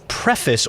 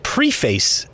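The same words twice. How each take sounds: First: The word is pronounced in the ordinary way. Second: The word is pronounced in an imitated, unusual way.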